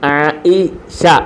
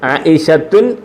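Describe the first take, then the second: First: The name ends on a plain vowel sound. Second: The name ends with an added 'tun' syllable. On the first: The speaker calls it right. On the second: The speaker calls it wrong.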